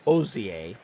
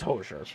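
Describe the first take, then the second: First: The name starts with a vowel, no H. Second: The name starts with a clear H sound. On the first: The speaker calls it wrong. "as he pronounced it" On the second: The speaker calls it right. "It's Hosier"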